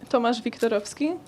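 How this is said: The name is pronounced with Polish sounds. "how do you pronounce it in Polish?"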